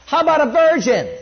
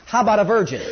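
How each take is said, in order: First: "virgin" hit much higher and louder, shouted; preacher shouts "How about a virgin?" to stun the crowd; emphatic shout. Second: Said in the usual way. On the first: Real, not acted. Preacher repeats the question to the congregation, shouting.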